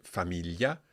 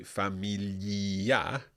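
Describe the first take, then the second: First: Said in the usual way. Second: Familia with the i sounded out, drawn out; mispronounced familia. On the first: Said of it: "for example, with the word familia". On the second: Shown as a demonstration. Teacher showing learners what not to say, mispronounced familia. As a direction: stretch familia slowly, voicing the silent i. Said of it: "we don't say familia".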